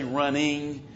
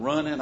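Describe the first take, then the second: First: "running" with a careful "-ing" ending; pronounced final G. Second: "running" said as "runnin'", no G at the end; dropped final G. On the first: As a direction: put the G on the end of "running", carefully sounded. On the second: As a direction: say "running" the Southern way, ending in a plain N. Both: Shown as a demonstration. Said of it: "put the G at the end".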